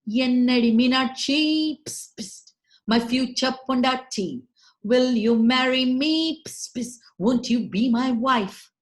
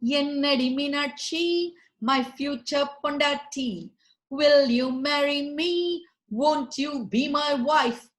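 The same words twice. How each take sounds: First: Louder suitor plea broken by unvoiced psst hisses; propose, hissing between lines; hissing lizard proposal. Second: Hammy pig suitor, a touch louder; pig proposing. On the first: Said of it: "he too went". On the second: Acted. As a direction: court her like a smug pig on one knee. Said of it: "licking his chops, knelt down".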